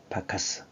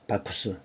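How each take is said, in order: First: The second vowel sounds like 'a'. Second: The second vowel sounds like 'oo'. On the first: This is the English pronunciation. "영어식으로 발음하는 게 바카스입니다" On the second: This is the Roman name. "로마로 넘어가면 이름이 바쿠스예요"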